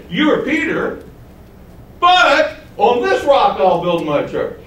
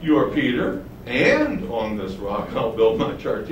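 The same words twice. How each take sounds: First: "but" hit as a contrast, slow after it; stress on but. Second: "and" said lower, joining "Peter" to the rock; smooth linking and. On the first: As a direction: set "Peter" against the rock with "but". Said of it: "He doesn't say". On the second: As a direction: let "and on this rock" flow on from "Peter", no contrast. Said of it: "What does he say?". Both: Shown as a demonstration.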